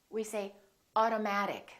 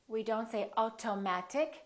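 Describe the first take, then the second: First: The first T is a quick D-like tap. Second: The first T is crisp. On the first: The speaker calls it right. "we say" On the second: The speaker calls it wrong. "We don't say"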